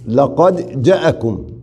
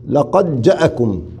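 First: The vowel after the j is short. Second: The vowel after the j is short.

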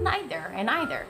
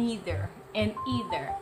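First: The first vowel is not an 'ee' sound. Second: The first vowel is an 'ee' sound. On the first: A few Americans say it this way too. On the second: This is how most Americans say it.

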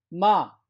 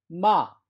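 The two takes are said the same way.

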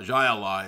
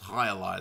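First: The first word begins with a J sound. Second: The first word begins with an H sound. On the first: The speaker calls it wrong. "It's not Jai Ally" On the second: The speaker calls it right. "it's High Ally"

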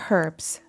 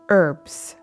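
First: The word begins with an audible h sound. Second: The word begins without any h sound. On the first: This is how people in the UK say it. "over in the UK, you guys say herbs" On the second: This is how people in the United States say it. "Why do we not pronounce the H in the United States?"

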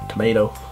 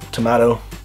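First: It is said with an American pronunciation. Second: It is said with an Irish pronunciation.

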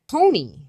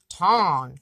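First: The vowel sounds like a plain oh. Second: The vowel sounds like aw in honk. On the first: The speaker calls it wrong. "It shouldn't be Tony. Like an O. It's not an O" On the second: The speaker calls it right. "It's like a honk"

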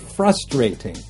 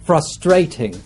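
First: The word is stressed the American way. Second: The word is stressed the British way. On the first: "in the US, they would say" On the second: "In the UK, they would say"

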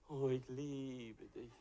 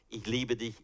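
First: It is said warmly, with feeling. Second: It is said flatly, without feeling.

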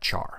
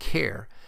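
First: It sounds unlike the start of 'character'. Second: It sounds like the start of 'character'. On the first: "I've always pronounced it as" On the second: "since it is short for character"

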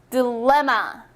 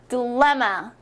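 First: The middle syllable is strongly stressed. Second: The middle syllable is strongly stressed.

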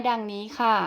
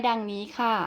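No difference in how they are said.

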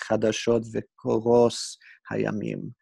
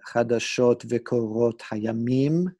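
First: The second word ends with an s sound. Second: The second word ends with a t sound. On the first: "probably a Hebrew reader would have pronounced it as" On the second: This is the modern Israeli reading. "to modern Israeli Hebrew speakers"

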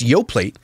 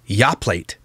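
First: The first vowel matches the 'yo' in yogurt. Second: The first vowel differs from the 'yo' in yogurt. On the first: The speaker calls it right. "It's Yoplate because inside is yogurt" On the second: The speaker calls it wrong. "This company's not called Yoplate"

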